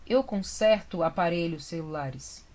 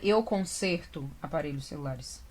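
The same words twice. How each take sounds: First: The stressed e vowel is open. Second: The stressed e vowel is closed. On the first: The speaker calls it right. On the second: The speaker calls it wrong.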